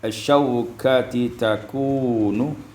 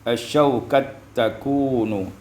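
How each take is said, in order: First: The two t sounds stay separate, with a vowel between. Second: The two t sounds merge into one doubled t.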